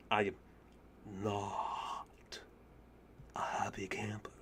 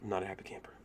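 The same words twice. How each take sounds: First: Whispered word by word, with long pauses; slow deflated whisper. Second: Very soft, low, whispered grumble; deflated whisper. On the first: Gamer after losing the run, slow halting whisper. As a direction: spell it out in a slow, low whisper. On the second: Gamer after losing the run, deflated whisper. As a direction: whisper it under your breath, defeated. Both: Real, not acted.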